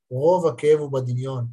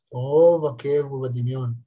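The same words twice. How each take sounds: First: Said in the usual way. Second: Repeated slowly for weight; slow emphatic restatement; slower, deliberate repeat. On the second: Shown as a demonstration. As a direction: let each word land.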